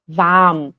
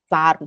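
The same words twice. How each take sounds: First: Warm as "vaam" without an r; long A. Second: Warm said "varm" with audible r; Swiss pulled R. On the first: Teacher giving German standard, warm with long A. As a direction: stretch the A of warm, no R. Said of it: "é um A longo". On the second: Teacher warning about Germany, warm with Swiss R. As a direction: sound out the R of warm. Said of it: "na Alemanha não". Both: Shown as a demonstration.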